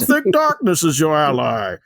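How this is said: It is said in a muffled put-on villain voice. "say the quote again, but in the voice"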